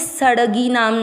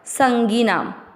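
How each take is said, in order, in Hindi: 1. पहले स्वर के बाद 'd' जैसी ध्वनि आती है। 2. पहले स्वर के बाद नासिक्य ध्वनि आती है। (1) "ये सड़गी नाम नहीं है, कई लोग इसको ड डमरू वाला समझ लेते हैं" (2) "ये है अंग ... ये वो है जो स पे बिंदी लगाएगा"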